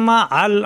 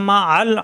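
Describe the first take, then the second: The two takes are said the same way.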